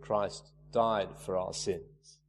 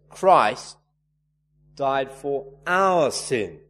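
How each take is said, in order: First: Said in the usual way. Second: "Christ" punched loud, pause, then "our" stretched out; emphatic "Christ", a long pause, drawn-out stress on "our". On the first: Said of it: "Maybe he'd emphasize certain words". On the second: Shown as a demonstration. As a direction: hit "Christ" hard, wait, then slowly lean on "our". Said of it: "Maybe he'd emphasize certain words in that little phrase".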